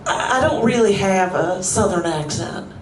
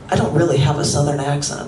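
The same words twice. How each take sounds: First: It is spoken in a southern American accent. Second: It is spoken in a neutral American accent.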